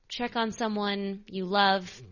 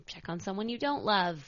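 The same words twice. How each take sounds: First: Slow, leaning on "on" in "check on someone"; a slow, sincere appeal; slow earnest plea. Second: "don't" punched as the twist word, falling; a wry turn on "don't"; stress on don't. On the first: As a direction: ask it gently and deliberately, stretching "check on". Pleading with listeners to check in. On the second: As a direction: land hard on "don't" for the joke. Twist on the previous line. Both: Real, not acted.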